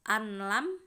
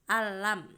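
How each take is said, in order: First: An n sound is kept before the l. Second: The n merges into the l without nasal hum. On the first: The speaker calls it wrong. "Enggak anlam itu" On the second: The speaker calls it right. "dibaca masuk tanpa dengan mendengung"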